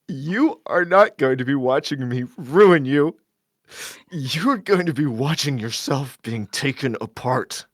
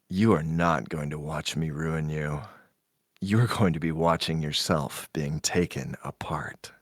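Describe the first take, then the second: First: It is said in a bitchy, snide tone. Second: It is said in a plain, unsnarky tone.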